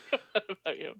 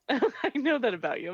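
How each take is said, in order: First: Said in the usual way. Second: Said through a laugh. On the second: Real, not acted. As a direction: giggle the words out.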